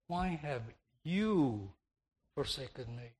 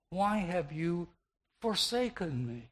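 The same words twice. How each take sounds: First: The word "you" carries the main stress. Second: The word "forsaken" carries the main stress. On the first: It is shocking that God of all persons did it. "shifting the emphasis to the pronoun" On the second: Of all things the Father could do, he forsook him. "the Savior could have emphasized with the verb"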